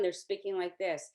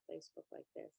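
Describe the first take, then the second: First: It is said loudly and confidently. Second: It is said softly and quietly.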